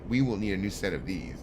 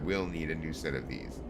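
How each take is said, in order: First: The words 'we will' are said in full. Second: The words 'we will' are contracted to 'we'll'. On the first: The speaker calls it wrong. "Doesn't sound right" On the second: The speaker calls it right. "contractions would be appropriate"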